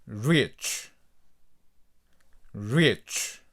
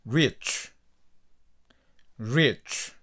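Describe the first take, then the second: No difference in how they are said.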